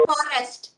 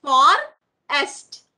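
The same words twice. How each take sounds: First: Said in the usual way. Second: "Forest" split as For - est, loud first half; long pause inside "Forest"; broken into syllables. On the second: Shown as a demonstration. Teacher answering how we break forest, split syllables. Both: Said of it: "How do we break forest?".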